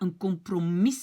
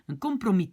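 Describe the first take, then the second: First: The word ends with an audible s sound. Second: The word ends on the i vowel. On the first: The speaker calls it wrong. "on ne dit pas un compromis" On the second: The speaker calls it right. "c'est juste le I que j'entends à la fin"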